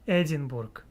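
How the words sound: The name is said with Russian-style pronunciation. The speaker calls it wrong. "I was pronouncing in my lovely Russian way"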